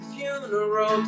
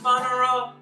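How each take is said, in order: First: The first syllable sounds like 'fyoo'. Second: The first syllable sounds like 'fun'. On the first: "change the pronunciation of the word funeral" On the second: "I want to put the fun in funeral"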